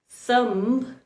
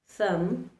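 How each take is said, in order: First: A b sound is heard after the m. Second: No b sound is heard after the m. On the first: The speaker calls it wrong. "instead of pronouncing" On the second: The speaker calls it right. "the right way to pronounce these words"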